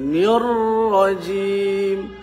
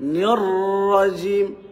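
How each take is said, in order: First: The word is said slowly. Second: The word is said quickly. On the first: The speaker calls it right. "ধীরে" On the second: The speaker calls it wrong. "নিররাজিম না, দ্রুত না"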